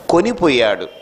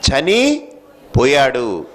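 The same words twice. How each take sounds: First: Said in the usual way. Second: చనిపోయాడు stretched very slowly, falling at the end; drawn-out word. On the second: Shown as a demonstration. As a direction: linger on చనిపోయాడు as a lament. (చనిపోయాడు నెమ్మదిగా సాగదీసి) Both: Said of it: "చనిపోలేదు వాడు".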